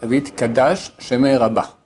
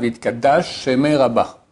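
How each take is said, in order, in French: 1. Deux sons sh distincts sont prononcés entre les mots. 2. Les deux sons sh se fondent en un seul son. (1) "le mot Hit Kadash finit par un shin, et le mot Shemé commence par un shin" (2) "beaucoup font la liaison"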